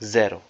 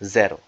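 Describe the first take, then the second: First: It is pronounced the Polish way. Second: It is pronounced the Polish way.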